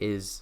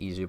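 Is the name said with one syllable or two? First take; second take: one; two. First: The name is said as one syllable. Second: The name is said as two syllables. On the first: It follows the official spelling. "maybe if you say is" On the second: It follows the Japanese pronunciation. "they pronounce it Izu"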